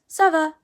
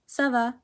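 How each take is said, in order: First: It is said in a lively, enthusiastic way. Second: It is said in a dull, bored way. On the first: It asks how someone is. "they usually sound enthusiastic" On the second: It answers that things are okay. "you have to say it duller"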